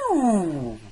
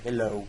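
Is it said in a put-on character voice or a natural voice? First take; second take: character voice; natural voice. First: It is said in a Mrs. Doubtfire voice. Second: It is said in the speaker's natural voice.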